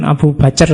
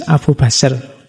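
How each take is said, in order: First: Abu Bacer with a hard c, read as it is spelled; wrong pronunciation. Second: Abu Basr said slowly, c as an s sound; correct pronunciation. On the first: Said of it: "bukan Abu Bacer ya". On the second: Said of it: "Pakai C, bukan Abu Bacer ya". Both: Shown as a demonstration.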